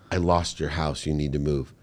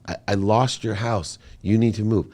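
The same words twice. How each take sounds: First: Quieter, choked retelling of "I lost your house"; tearful confession. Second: Son repeating the news to mom who didn't listen, insistent. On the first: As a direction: say it softly as if holding back tears. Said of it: "I'm crying while I'm saying it". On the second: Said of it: "you didn't hear me". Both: Retold or imitated.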